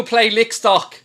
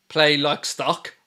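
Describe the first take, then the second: First: Mock the troll's misspelling "lick". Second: Said in the usual way. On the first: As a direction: sneer "play lick stock" with a short i in lick. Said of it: "you've gone loser pool".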